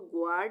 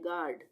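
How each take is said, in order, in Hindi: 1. 'g' के बाद 'w' की आवाज़ आती है। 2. 'g' के बाद 'w' की आवाज़ नहीं आती। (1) "ग्वाड नहीं बोलेंगे" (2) "हम बोलेंगे गार्ड"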